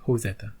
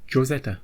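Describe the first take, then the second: First: "Josetta" starting with an H sound; Spanish J pronunciation. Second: "Josetta" starting with an English J sound; English J pronunciation. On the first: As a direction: say "Josetta" as Ho-setta, silent-J style. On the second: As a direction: say "Josetta" with a hard J, as in Joe. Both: Shown as a demonstration. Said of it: "how to pronounce the title".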